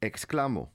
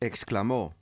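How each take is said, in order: First: The stress is not on the last syllable. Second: The stress is on the last syllable. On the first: I exclaim. "Without the accent, exclamó would be read exclamo" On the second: He exclaimed. "With the accent, as it appears here, the word is read"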